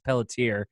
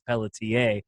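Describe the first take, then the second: First: The name is said with an English accent. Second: The name is said with a French accent. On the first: "I'm like it's Pelletier" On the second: "giving me the French accent too, which is Pelletier"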